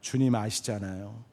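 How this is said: It is said in a small, fading voice. He is too ashamed to speak up. "기어 들어가는 목소리로 대답했을지 모릅니다"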